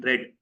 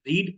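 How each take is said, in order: First: "read" said as "red", short e; past-tense pronunciation. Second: "Read" said as "reed", long ee; present-tense pronunciation. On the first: Teacher contrasting tenses for students, "read" pronounced "red". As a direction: say "read" to rhyme with bed. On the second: Teacher contrasting tenses for students, "Read" pronounced "reed". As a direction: say "Read" to rhyme with need. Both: Shown as a demonstration. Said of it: "you pronounce it differently".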